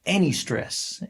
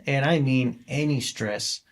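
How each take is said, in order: First: Said in the usual way. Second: "any" slowed and leaned on; slow emphatic "and I mean any stress". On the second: Shown as a demonstration. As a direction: hit "any" hard, slowly.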